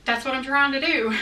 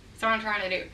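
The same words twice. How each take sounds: First: Said in the usual way. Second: Quick laughing repeat, much softer; amused throwaway mutter. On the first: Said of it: "this, that". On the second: Real, not acted. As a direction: laugh it out under your breath, fast. Laughing repeat of own line.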